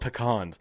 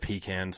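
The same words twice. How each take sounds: First: The word is said in a fancy, affected way. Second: The word is said in a plain, everyday way. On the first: It mocks a pronunciation that seems too posh. The speaker calls it wrong. "It just sounds too fucking pretentious for me" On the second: It is the ordinary, unpretentious pronunciation. The speaker calls it right. "No, they're just pecans, okay?"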